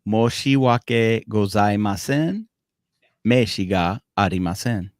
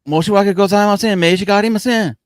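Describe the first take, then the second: First: It is said slowly. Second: It is said at fast natural speed.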